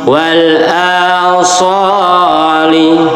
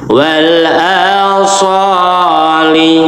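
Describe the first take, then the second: The two takes are said the same way.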